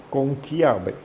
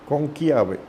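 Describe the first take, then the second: Both takes have the same delivery.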